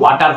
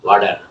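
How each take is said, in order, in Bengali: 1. মাঝের ব্যঞ্জনটি একটি শক্ত T শব্দ। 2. মাঝের ব্যঞ্জনটি একটি নরম D-এর মতো শব্দ। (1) "যেমন ওয়াটার হয় না" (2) "টি এর উচ্চারণ ড হবে।"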